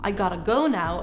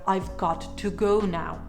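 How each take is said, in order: First: 'Got to' is reduced to 'gotta'. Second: 'Got to' is said fully as two words. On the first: "Gotta is another way of saying got to" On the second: "instead of"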